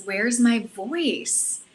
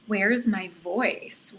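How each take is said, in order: First: WHERE'S MY VOICE stretched out slowly, falling at the end; insistent question. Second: WHERE'S MY VOICE drawn out slowly, rising at the end; searching question. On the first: Woman retelling her breathwork realization, insistent question. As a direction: repeat "where's my voice" very slowly, pressing MY, ending downward. Retold inner questioning, repeated take. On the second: Woman retelling her breathwork realization, searching question. Retold inner questioning, first take. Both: Retold or imitated.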